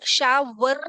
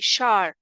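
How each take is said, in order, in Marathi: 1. हा शब्द दोन वेगळ्या अक्षरांत म्हटला जातो. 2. हा शब्द एकाच अक्षरात जोडून म्हटला जातो.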